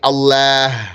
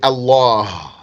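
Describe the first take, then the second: First: The L sound is light and thin. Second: The L sound is heavy and dark. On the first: The speaker calls it wrong. "You don't say Allah" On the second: The speaker calls it right. "the heaviness of the lam"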